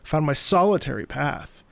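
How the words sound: The stress falls on the word solitary. Being alone on the journey is what matters. "So the emphasis is on solitary"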